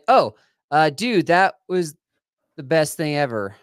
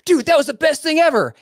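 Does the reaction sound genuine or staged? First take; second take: staged; genuine. First: It sounds like a forced, staged repeat. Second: It sounds like a spontaneous, genuine reaction.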